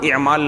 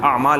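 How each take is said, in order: First: The word begins with a short 'i' vowel. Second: The word begins with a long 'aa' vowel. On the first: The speaker calls it wrong. "इमाल नहीं है" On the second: The speaker calls it right. "आमाल है वो"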